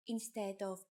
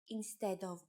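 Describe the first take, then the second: Both takes have the same delivery.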